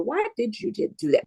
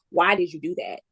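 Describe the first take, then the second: First: It sounds curious and gentle. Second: It sounds judgmental and accusing.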